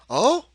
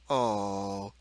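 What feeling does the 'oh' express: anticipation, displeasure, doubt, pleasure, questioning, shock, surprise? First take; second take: anticipation; displeasure. First: The oh sounds expectant. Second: The oh sounds displeased. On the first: "or anticipation" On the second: "or displeasure"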